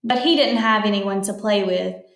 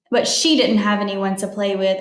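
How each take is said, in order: First: Said in the usual way. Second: "she" stressed a little over the rest. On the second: Real, not acted. Reader corrects a misread pronoun, with light stress on "she". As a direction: correct the line by leaning on "she".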